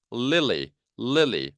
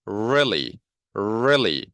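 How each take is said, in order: First: "lily" with clear forward L sounds; L resonating in front. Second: "really" with a drawn R from the back; R resonating inside. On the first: Teacher drilling L against R, forward L in "lily". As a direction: ring both Ls of "lily" at the front. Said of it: "앞쪽에서 울리죠". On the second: Teacher drilling R against L, inward R in "really". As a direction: ring the first sound of "really" inside the mouth. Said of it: "안쪽에서 울리죠". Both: Shown as a demonstration.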